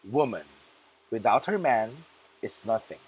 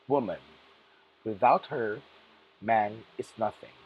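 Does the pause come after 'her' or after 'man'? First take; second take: after man; after her. First: There is a pause after the word man. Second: There is a pause after the word her. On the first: Women are nothing without men. "woman, comma, without her man, comma, is nothing" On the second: Men are nothing without women. "Woman, comma, without her, comma, man is nothing"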